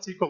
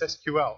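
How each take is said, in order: First: It is said as one word, like 'sequel'. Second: It is said as three separate letters. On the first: The speaker calls it wrong. "It's not SQL" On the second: The speaker calls it right. "an initialism you say the letters"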